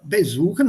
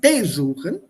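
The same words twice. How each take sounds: First: The stress is on the second syllable. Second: The stress is on the first syllable. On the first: The speaker calls it right. "the besuchen, stresses on the verb itself and not on the prefix" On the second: The speaker calls it wrong. "not besuchen"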